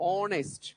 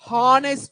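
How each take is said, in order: First: The word begins with a vowel sound. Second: The word begins with an h sound. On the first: The speaker calls it right. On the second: The speaker calls it wrong.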